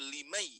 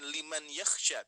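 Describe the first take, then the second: First: The n sound merges directly into the y. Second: The n sound is pronounced clearly before the y. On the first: The speaker calls it right. "Langsung memasuki ke huruf ya-nya" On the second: The speaker calls it wrong. "Tapi dibacanya bukan liman yakhsha"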